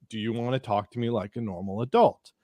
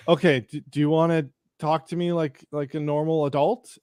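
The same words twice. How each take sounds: First: Lower, measured, controlled repetition; deliberate repeat. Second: Pointed question with a rising end, at usual pitch. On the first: Narrator repeats himself to angry man, low and deliberate. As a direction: repeat it evenly and deliberately, pitched down. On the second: Narrator confronts angry man, pointed rising question. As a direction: ask it firmly, lifting the last word. First take, before being asked "Excuse me?. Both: Retold or imitated.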